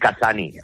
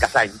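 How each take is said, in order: First: The name ends with a final 'ee' vowel. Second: The name ends with an 'ny' sound. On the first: The speaker calls it wrong. "diríais Casani" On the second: The speaker calls it right. "como España, le quitas la España"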